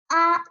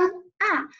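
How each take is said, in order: First: The pitch stays high and level. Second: The pitch falls sharply from high to low. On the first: "一声" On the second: "四声"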